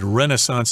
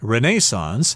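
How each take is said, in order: First: It is said with an American pronunciation. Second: It is said with a British pronunciation. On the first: "Renaissance is the American pronunciation" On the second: "I think in England they say Renaissance"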